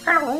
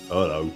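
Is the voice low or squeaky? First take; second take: squeaky; low. First: The voice is high and squeaky. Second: The voice is low, not squeaky. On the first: This is how these creatures normally sound. "normally it's "Ooh, hello," like that" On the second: This character sounds unlike the rest of his kind. "you've never heard a Yozoki sound like that"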